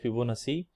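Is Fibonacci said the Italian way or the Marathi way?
Marathi. The name is said the Marathi way. The speaker calls it wrong. "In Marathi we pronounce like Fibonacci"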